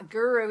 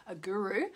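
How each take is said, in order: First: Guru with an Australian accent. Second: Said in the usual way. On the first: Shown as a demonstration. Host repeating the Indian word, in her Australian accent. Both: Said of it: "guru in my Australian accent".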